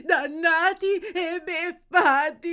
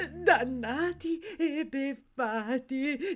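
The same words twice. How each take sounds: First: Slow wail rising high; despairing wail. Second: Slow, tearful moan; mournful lament. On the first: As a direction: repeat the curse as a louder, tearful cry. Same lament, building. (lamento straziante, più forte) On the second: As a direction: drag it out in subdued despair. Lamenting, first take. (lamento lento e piagnucoloso) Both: Acted.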